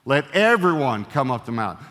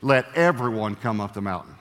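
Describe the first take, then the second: First: Louder, everyone leaned on; stress on everyone. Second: Said in the usual way. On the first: Shown as a demonstration. Preacher to congregation, stressing everyone. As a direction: hit the word everyone harder. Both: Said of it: "You go back and read it".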